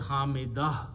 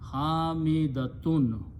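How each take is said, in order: First: The word ends in a soft h sound. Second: The word ends with a full -tun ending. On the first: The speaker stops after the word. "When we stop, we say Hamidah" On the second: The word is said in the middle of speech. "Her name will be Hamidatun"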